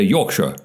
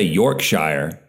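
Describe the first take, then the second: First: The last syllable sounds like 'shore'. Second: The last syllable sounds like 'shire'. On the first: The speaker calls it right. "they always say shore" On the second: The speaker calls it wrong. "in England, they don't say Yorkshire"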